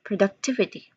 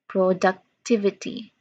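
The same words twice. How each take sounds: First: The word is said quickly. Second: The word is said slowly. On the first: "Now faster" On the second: "A little bit slower"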